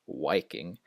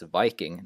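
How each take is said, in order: First: The word begins with a rounded W sound. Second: The word begins with a buzzing V sound. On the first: The speaker calls it wrong. "not Viking" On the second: The speaker calls it right. "it's Viking"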